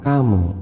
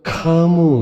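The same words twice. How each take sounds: First: The k sound is said lightly and normally. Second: The k sound is pressed hard and exaggerated. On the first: The speaker calls it right. "tapi biasa aja" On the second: The speaker calls it wrong. "terlalu ka-nya terlalu ditekan"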